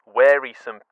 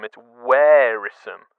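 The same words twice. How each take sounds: First: Wearisome said carefully, with the first part like wear; trying the word. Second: Wearisome slow and firm, first part like wear; final correct take. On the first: Host sounding out a word he finds awkward, carefully. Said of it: "I don't know if that's my accent". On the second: Host finally saying the word cleanly, slow and firm. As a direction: settle on wearisome slowly. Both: Shown as a demonstration.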